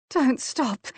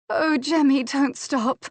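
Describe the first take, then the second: First: Begging. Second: High, louder breathless pleading; pleading cry. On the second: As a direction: beg him not to stop, rising high. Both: A narrator's reading. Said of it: "she begged shamelessly".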